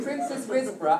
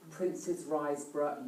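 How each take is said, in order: First: "Risborough" with a short "ris", like riz; corrected place name. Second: "Riseborough" with a long "rise", like the word rise; mispronounced place name. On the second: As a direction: say "Riseborough" as RISE-borough, rhyming with eyes. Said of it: "am I saying it wrong". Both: Real, not acted.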